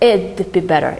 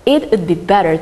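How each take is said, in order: First: It is contracted into one short syllable. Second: It is said as two full words.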